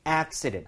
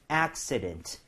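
First: "accident" with the stress on "ac-" and "-dent" kept full and crisp; "accident" with a full, clear final "dent". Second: "accident" with the stress on "ac-", "-dent" going weak and soft; "accident" stressed on the first syllable, the ending dropped low; stress on the front. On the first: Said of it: "얘는 강세 진짜 주의하셔야 돼요". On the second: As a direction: hit "ac-" hard and let "dent" fade. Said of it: "accident 앞쪽에 강세를 주게 되면". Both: Shown as a demonstration.

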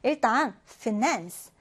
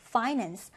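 First: Finance said fi-NANCE, the weight on NANCE; stress on the second syllable. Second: Finance said FI-nance, the weight on FI; stress on the first syllable. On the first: Teacher showing the first stress option for finance. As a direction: say finance with the stress at its end, slowly. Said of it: "강세와 발음이 이제 두 가지가 가능합니다". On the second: Teacher showing the second stress option for finance. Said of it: "첫 음절에 강세가 오기도 해요". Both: Shown as a demonstration.

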